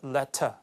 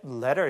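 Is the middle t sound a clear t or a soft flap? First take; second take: clear t; flap. First: The middle t is a clear, crisp t. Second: The middle t is a soft, quick flap. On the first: "영국식 발음이기 때문에 ... 서신은 letter 이렇게 해서 그 D하고 T 발음이 정확하게 구분돼서" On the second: "미국식 발음으로 발음이 됐다면 ... T 발음이 부드럽게 우리말 리을처럼 발음되기 때문에 letter 이렇게 발음돼요"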